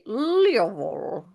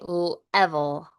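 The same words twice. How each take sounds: First: The first vowel is not a short E. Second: The first vowel is a short E. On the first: The speaker calls it wrong. "you kind of say level or something like that" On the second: The speaker calls it right. "because it's a short E"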